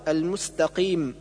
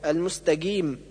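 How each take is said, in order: First: المستقيم with clean uvular q; correct qaf. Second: المستقيم with hard g; qaf as g. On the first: Teacher correcting, proper q in المستقيم. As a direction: give المستقيم a true ق. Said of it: "والصواب". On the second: Teacher showing the error, g in المستقيم. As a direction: voice ق into g, between q and k, in المستقيم. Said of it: "حرفا ما بين القاف والكاف". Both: Shown as a demonstration.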